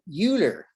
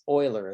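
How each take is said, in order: First: The name is read the American English way. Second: The name is said the German way. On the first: The speaker calls it wrong. "we Americans would look at that word and think" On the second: The speaker calls it right. "is the correct way to pronounce that"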